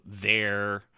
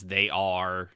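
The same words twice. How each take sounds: First: THERE as one word, for they're; the contraction, one drawn-out syllable THERE; contracted. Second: THEY ARE as two slow, separate words; slowly, no contraction in THEY ARE; uncontracted. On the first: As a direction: run they are together into THERE. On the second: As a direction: spell out THEY ARE in full. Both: Shown as a demonstration. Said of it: "they would spell it out".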